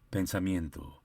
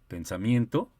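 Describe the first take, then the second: First: The pitch falls at the end of the word. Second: The pitch rises at the end of the word. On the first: "se escucha hacia abajo" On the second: "se escucha hacia arriba"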